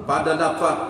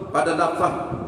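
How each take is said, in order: The two takes are said the same way.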